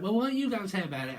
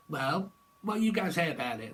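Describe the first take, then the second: First: Mock challenge. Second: Said in the usual way. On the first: Repeated higher, faster.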